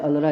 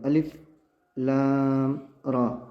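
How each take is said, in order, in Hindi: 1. अक्षरों को मिलाकर एक शब्द की तरह पढ़ा जाता है। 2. हर अक्षर का नाम अलग से बोला जाता है। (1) "ऐसा नहीं पढ़ते" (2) "तो हम उसको अलग अलग पढ़ते हैं"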